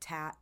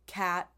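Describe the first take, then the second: First: The word begins with a T sound. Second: The word begins with a K sound. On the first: A young child cannot yet make the right sound. The speaker calls it wrong. "they'll say tat" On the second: This is the intended adult form. The speaker calls it right. "they're supposed to be saying"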